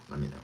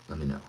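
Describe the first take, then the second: No difference in how they are said.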